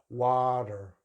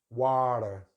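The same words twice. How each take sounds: No difference in how they are said.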